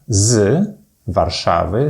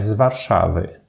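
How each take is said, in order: First: The z sound is pronounced strongly and distinctly. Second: The z sound is pronounced lightly, without emphasis.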